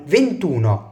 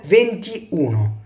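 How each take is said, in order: First: The vowel is dropped and the words merge. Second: The vowel is kept and both words sound separately. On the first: The speaker calls it right. "بقول فينتونا" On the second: The speaker calls it wrong. "مش بقول فينتي اونو"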